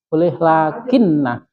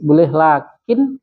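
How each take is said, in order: First: The word ends on a doubled n plus vowel. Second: The word ends on a short, bare n. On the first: "boleh yang tas tasdid" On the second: "boleh yang sukun"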